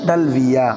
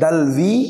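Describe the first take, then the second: First: The word ends with an added ya syllable. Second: The word ends in a plain long ee. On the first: "আও ফাতাহ তাহা" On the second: "তুমি সাকিন দিবে আল ইয়া কাকে"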